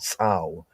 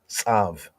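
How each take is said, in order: First: The word ends with a w sound. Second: The word ends with a v sound. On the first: This is the ancient pronunciation. "Ancient pointing" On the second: This is the modern Hebrew pronunciation. "Modern Hebrew"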